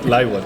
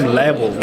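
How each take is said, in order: First: The name is said with a German pronunciation. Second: The name is said with an American pronunciation. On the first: This is the original pronunciation of the name. "not Leibold in German" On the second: It makes the name easier for English speakers. "I say like a little American"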